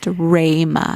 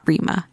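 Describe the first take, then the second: First: The first syllable has the vowel of 'day'. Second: The first syllable has the vowel of 'see'. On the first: The speaker calls it right. "my name is pronounced Rayma" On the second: The speaker calls it wrong. "not Rima"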